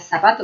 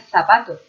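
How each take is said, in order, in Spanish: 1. La primera consonante es un sonido th. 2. La primera consonante es un sonido s. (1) "No sería zapato" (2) "Sería zapato"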